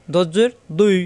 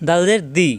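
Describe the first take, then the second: First: "দুই" with a thick d from the tongue's side; heavy d sliding to i in "দুই"; heavy Arabic dad. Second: "দি" with a light d and clear ee; easy unthickened d in "দি"; plain thin dal. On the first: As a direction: darken "দুই", not a Bengali d. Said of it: "বাংলা উচ্চারণ হবে না". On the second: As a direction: say "দি" simply, as in Bengali. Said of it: "সহজ". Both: Shown as a demonstration.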